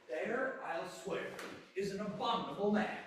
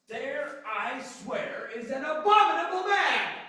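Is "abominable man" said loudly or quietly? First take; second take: quietly; loudly. First: Abominable man is said at normal, quieter volume. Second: Abominable man is shouted as a big exclamation.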